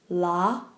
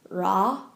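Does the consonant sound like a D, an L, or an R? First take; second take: L; R. First: The consonant sounds like an English L. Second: The consonant sounds like an English R. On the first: "or la" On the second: "it's not ra"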